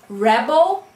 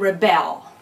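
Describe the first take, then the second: First: The stress is on the first syllable. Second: The stress is on the second syllable.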